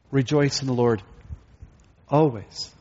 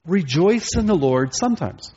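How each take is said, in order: First: "always" set apart after a pause; corrected quotation. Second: Higher-pitched mock quotation; deliberate misquote. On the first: Preacher corrects the misquote for the congregation, pausing before "always". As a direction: quote it evenly, pause, then land "always". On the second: Preacher misquotes Paul to the congregation, mock earnest. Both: Shown as a demonstration. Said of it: "No, that's not what he says".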